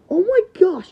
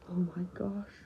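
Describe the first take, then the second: First: High, loud gasped exclamation; shocked cry. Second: Hushed, low disbelief; stunned whisper. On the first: Friend finds Valtryek broken, loud shocked cry. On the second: Friend takes in broken Valtryek, stunned whisper. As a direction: whisper it in shock. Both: Acted.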